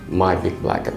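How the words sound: All words are said flat, none stressed.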